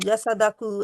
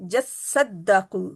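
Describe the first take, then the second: First: The s and d sounds are said single. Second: The s and d sounds are held doubled. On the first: The speaker calls it wrong. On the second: The speaker calls it right.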